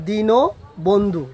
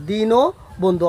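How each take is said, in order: First: দীনবন্ধু said very slowly as "di-no-bon-dhu"; slow, careful teacher's demo of দীনবন্ধু; slow pronunciation demo. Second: Said in the usual way. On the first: Shown as a demonstration. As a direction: draw out দীনবন্ধু with a clear o after ন. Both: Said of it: "তখন উচ্চারণ হবে".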